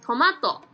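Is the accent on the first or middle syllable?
middle. Hiroshima dialect, accent on the middle syllable.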